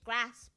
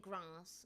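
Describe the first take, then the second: First: It is said in a northern English accent. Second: It is said in a non-northern English accent. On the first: "This is how you know that I'm from the north. I say grass" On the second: "I don't say grass"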